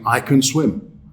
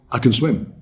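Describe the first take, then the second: First: The word 'can' is pronounced fully. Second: The word 'can' is reduced and weak. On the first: The speaker calls it wrong. "We don't actually say that" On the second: The speaker calls it right. "We say"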